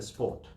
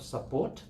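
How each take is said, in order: First: The first vowel is dropped, joining s and p. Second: The first vowel is kept before the p. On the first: The speaker calls it wrong. "they join S and P together" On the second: The speaker calls it right. "instead of support"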